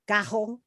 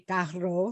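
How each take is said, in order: First: The r is said as a breathy h-like sound. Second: The r is said as a rolled trill. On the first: The speaker calls it wrong. "not have the cajo sound" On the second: The speaker calls it right. "roll the R's"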